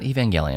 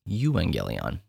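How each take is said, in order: First: The word begins with a 'ev' sound. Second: The word begins with a 'ew' sound. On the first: The speaker calls it wrong. "the word is not Evangelion" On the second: The speaker calls it right. "it's Euangelion"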